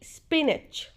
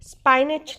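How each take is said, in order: First: The first vowel is a short 'i'. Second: The first vowel sounds like 'eye'. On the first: The speaker calls it right. "नहीं स्पिनच" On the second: The speaker calls it wrong. "स्पाइनच नहीं"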